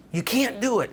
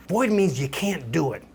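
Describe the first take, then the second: First: Can't pitched up high and pressed hard; stress on can't. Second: Said in the usual way. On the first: Shown as a demonstration. Teacher repeating the rule to drive it home, can't stressed high. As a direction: lean right into the word can't.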